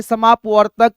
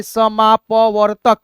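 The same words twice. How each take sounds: First: Quicker, joined-up reading; speed में पढ़ना. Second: Slow, separated syllables; धीमा, तोड़कर. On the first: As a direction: run the syllables together as one word. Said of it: "आप speed में भी पढ़ेंगे". (जोड़कर तेज़ी से पढ़ना) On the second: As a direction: read it step by step for learners. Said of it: "पहले आप धीरे धीरे पढ़ते हो". (धीरे-धीरे एक-एक अक्षर अलग) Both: Shown as a demonstration.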